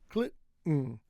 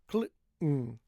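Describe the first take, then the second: The two takes are said the same way.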